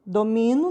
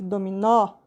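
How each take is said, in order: First: "Domino" stressed on MI; "Domino" with a weak final o; stress on middle syllable. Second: "dominó" stressed on an open final NÓ; "dominó" with the weight at the end; stress on final syllable. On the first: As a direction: lean on the MI of "Domino". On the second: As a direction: land on a wide open ó in "dominó". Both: Shown as a demonstration. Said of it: "Tá vendo a diferença?".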